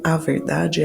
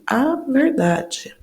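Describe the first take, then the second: First: Said in the usual way. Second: "a" held long and high, then "verdade"; stress on A. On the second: Shown as a demonstration. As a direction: stretch out the article "a" before "verdade", slowly. Teacher isolates the feminine article. (ênfase no "a", alongado e mais agudo)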